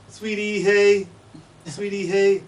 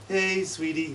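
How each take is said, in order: First: "Sweetie, hey" whistled high on one constant pitch; Martha's Vineyard chickadee. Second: "Hey, sweetie" whistled with pitch falling down; usual chickadee call. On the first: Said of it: "they say". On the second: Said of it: "Instead of saying". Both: Shown as a demonstration.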